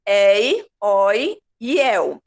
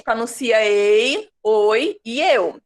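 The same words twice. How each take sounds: First: Ei, oi, eu open, very slow; open diphthongs. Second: Ei, oi, eu with closed vowels, slowly; closed diphthongs. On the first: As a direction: open the vowels wide, slowly. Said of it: "Só serve se for". (ditongos abertos, bem devagar) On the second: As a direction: say them closed and slow. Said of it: "a gente pronuncia diferente". (ditongos fechados, devagar) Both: Shown as a demonstration.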